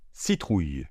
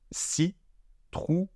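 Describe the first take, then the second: First: Said in the usual way. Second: Slow, exaggerated. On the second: Shown as a demonstration. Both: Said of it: "Donc je répète".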